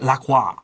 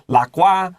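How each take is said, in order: First: The name is said with a French pronunciation. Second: The name is said with an American pronunciation. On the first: "They might use the French pronunciation" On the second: "I will use the American pronunciation"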